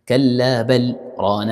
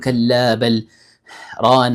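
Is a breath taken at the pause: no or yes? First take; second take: no; yes. First: The pause is brief with no breath taken. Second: The pause includes an audible breath. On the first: The speaker calls it right. "ما تاخذ نفس" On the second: The speaker calls it wrong. "ما أقول كلا بل ران، لا لا لا"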